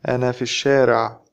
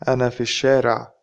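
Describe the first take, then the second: First: It is spoken fast with the L dropped. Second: The same.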